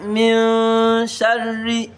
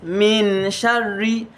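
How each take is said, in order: First: The n is hidden in a nasal hum. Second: The n is pronounced fully and clearly. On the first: The speaker calls it right. "I said min sharri" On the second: The speaker calls it wrong. "I did not say min sharri"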